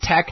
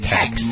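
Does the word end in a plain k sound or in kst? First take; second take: k; kst. First: The word ends in a plain k sound. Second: The word ends in a kst sound. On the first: The speaker calls it right. "It's tech" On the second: The speaker calls it wrong. "They pronounced it text"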